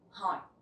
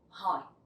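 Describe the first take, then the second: No difference in how they are said.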